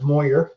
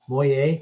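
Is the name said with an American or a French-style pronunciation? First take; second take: American; French-style. First: The name is said with an American pronunciation. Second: The name is said with a French-style pronunciation. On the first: "I'm sure it's Moyer in the States" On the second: "up here. ... the French thing going on"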